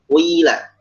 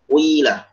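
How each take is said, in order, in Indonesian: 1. Vokal pertama condong ke bunyi u. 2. Vokal pertama condong ke bunyi u.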